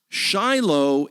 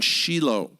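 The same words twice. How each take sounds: First: The name is said the American English way. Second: The name is said the Hebrew way. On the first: It names the American Civil War battlefield. "Shiloh is an American Civil War battlefield" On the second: It names the ancient site in Israel. "you notice the pronunciation Shiloh"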